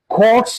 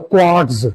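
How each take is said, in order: First: The final sound ends with a hissing s. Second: The final sound ends with a buzzing z. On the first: The speaker calls it right. "It will be pronounced as" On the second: The speaker calls it wrong. "Don't pronounce it as"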